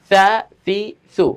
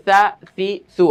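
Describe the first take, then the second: No difference in how they are said.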